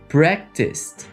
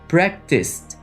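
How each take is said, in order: The two takes are said the same way.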